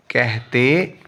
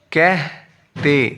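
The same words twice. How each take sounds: First: Said in the usual way. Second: "کہتے" slowly, broken in two; syllable by syllable. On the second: Shown as a demonstration. Teacher splits, then joins word.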